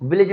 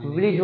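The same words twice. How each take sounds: First: "विलेज" with an ay sound in the second syllable; wrong pronunciation of village. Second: "विलेज" with a short i in the second syllable; correct pronunciation of village. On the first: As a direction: say "विलेज" as vi-layj. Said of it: "विलेज नहीं होता". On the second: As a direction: say "विलेज" as vi-lij. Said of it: "विलेज होता है". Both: Shown as a demonstration.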